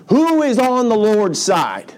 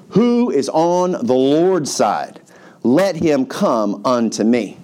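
First: Slow, high-pitched rallying call; yelled challenge. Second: Slow, drawn-out proclamation; mock yell. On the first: Acted. Preacher repeats Moses' line as a line is drawn, high call. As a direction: throw the challenge out across a camp. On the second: Moses challenges the camp at the gate, measured mock yell. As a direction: call out a challenge without full volume. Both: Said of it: "So he yells this out".

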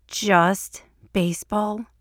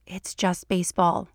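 First: Slow, aghast echo on "Just baseball". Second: Said in the usual way. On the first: A narrator's reading. Mulder repeats Scully's dismissal of the game, aghast. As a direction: draw out "Just baseball" in mock-horrified disbelief. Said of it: "he says, aghast".

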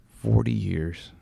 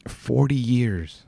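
First: "Forty years" repeated softer, almost to himself; soft echo. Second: "forty years" drawn out slowly, each word weighted; slow emphatic. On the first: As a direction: let "Forty years" fall away quietly in disbelief. Echoing the album's age softly. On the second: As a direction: stretch out "forty years" to let it sink in. Repeating the album's age, amazed. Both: Real, not acted.

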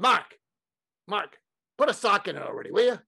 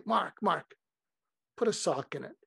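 First: Put-on high, impatient Brooklyn accent; Larry King. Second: Mild, affectionate mock scolding; loving. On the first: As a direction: cut off the fretting in Brooklyn accent. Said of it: "in his Brooklyn accent". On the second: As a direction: gently tell a friend to stop fretting. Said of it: "say it with such love".

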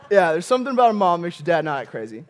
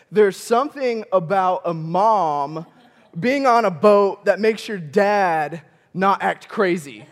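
First: Rattled off fast as a knowing aside; fast, breezy repeat; quick rerun. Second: Drawn out, each word weighed; slow, knowing delivery; slow and deliberate. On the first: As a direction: toss it off quickly. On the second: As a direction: let the point land slowly. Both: Shown as a demonstration. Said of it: "repeats line slower, then faster".

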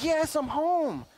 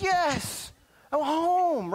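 First: Put-on high child's voice, slow and drawn out; slow relieved child. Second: Put-on high, loud child's voice, glad to be home; relieved child. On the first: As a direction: savor being home, slowly, like a kid. Child voice repeated slower. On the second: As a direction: play a kid sighing with relief at the door.

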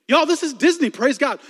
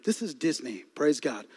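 First: High, loud amused exclaim; excited. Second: Low, soft ironic aside; deadpan. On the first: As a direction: cheer it to the crowd. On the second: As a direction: say it dry under your breath. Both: Shown as a demonstration.

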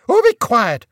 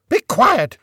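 First: Loud, higher barked command; sergeant-major shout. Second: Loud repeated barked command; sergeant-major shout. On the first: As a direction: bellow it across a parade ground. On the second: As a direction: bark it again like a drill sergeant. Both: A narrator's reading. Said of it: "she shouted in the sort of voice used by sergeant majors".

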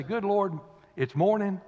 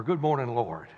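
First: Grumpy groan. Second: Glad greeting. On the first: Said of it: "They either say". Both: Retold or imitated.

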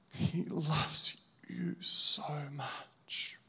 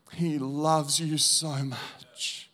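First: Slow whispered preaching; a slow, hushed whisper. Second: Said in the usual way. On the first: Acted. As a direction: breathe it softly to each listener. Preacher's final repeat, breathed out.

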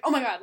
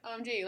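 First: Loud, punchy oh my god; forceful exclamation of oh my god; exclaimed reading. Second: Said in the usual way. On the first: Shown as a demonstration. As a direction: burst out with the full phrase. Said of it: "Like, it's like". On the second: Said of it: "I'm not just like".

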